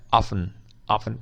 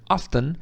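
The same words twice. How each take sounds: First: OFTEN as OFF-un; common silent-T form. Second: OFTEN as OFF-tun with the T heard; pronounced T. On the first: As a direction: drop the T from OFTEN. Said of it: "mas a mais comum é". (often sem T, a forma mais comum, "ófen") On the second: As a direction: sound the T in OFTEN. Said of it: "as duas estão corretas". (often com T audível, "óften") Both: Shown as a demonstration.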